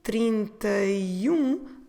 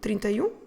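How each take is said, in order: First: The phrase is said slowly. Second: The phrase is said very quickly. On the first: "if I say it slowly" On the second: "if I say it very quickly"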